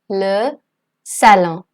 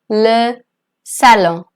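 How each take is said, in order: The two takes are said the same way.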